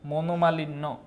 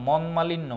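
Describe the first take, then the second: First: The first part is said as 'mono' with 'o'. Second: The first part is said as 'mon' without 'o'. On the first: The speaker calls it right. "উচ্চারণ হবে মনোমালিন্য" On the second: The speaker calls it wrong. "মনমালিন্য না"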